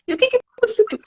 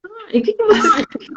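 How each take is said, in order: First: Repeated probing question. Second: Much higher, mock curious; teacher's probing question. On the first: Retold or imitated. Teacher repeats question to student, high and teasing. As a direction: ask it again with teasing curiosity, pitched high. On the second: Teacher asks student what they did, much higher and mock curious. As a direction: probe innocently in a high voice. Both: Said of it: "Eu falo assim".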